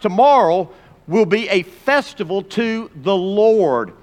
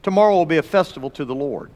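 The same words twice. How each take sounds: First: Slow, drawn-out proclamation; measured announcement; slow reading. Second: Fast, brisk repetition; brisk recap; quick reread. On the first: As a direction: read it slowly, weighing each word. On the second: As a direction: rattle it off quickly. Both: Shown as a demonstration. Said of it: "Now circle that word Lord".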